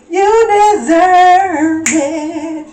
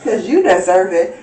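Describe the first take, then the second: First: Slow, high, loud sung line; sung, belt it out slowly like a diva; a slow, loud, high sung phrase. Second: Said in the usual way. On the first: Acted.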